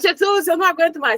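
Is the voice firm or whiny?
firm. It is said in a plain, firm voice. "Você não fala"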